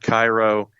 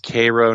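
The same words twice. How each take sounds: First: It is said the common non-local way. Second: It is said the local Georgia way. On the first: This is how outsiders say it. The speaker calls it wrong. "not Cairo" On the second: This is how people in the area say it. The speaker calls it right. "In Georgia, it's Cairo"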